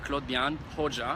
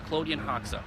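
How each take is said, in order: First: The name is said in its original pronunciation. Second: The name is said in an American pronunciation. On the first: "correct pronunciation of my name is" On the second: "the American pronunciation is"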